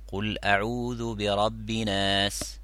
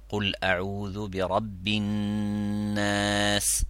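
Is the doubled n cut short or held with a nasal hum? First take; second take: cut short; held hum. First: The doubled n is cut short without nasal hum. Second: The doubled n is held with a nasal hum. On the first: The speaker calls it wrong. "on met shadda sur le noun et on fait pas la runna" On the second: The speaker calls it right. "Au lieu de dire"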